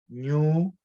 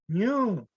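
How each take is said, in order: First: The word is said on a low tone. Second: The word is said on a high tone. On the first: It means corn dough. "Tenemos el primero que es masa" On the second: It means soot. "y el tono alto"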